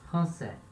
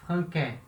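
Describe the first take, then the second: First: The middle consonant is an S sound. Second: The middle consonant is a K sound. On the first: "Mas tem a cedilha" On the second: "Se não tivesse a cedilha, ficaria franquais"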